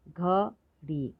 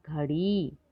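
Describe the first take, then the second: First: घड़ी slowly split as घ, ड़ी; syllable by syllable. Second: Said in the usual way. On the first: Shown as a demonstration. Teacher showing long ई in घड़ी, syllable by syllable. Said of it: "थोड़ा ज़्यादा समय लगता है". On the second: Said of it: "तो शब्द पढ़ते हैं".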